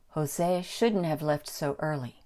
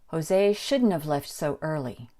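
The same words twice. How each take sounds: First: The word have is reduced to sound like of. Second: The same.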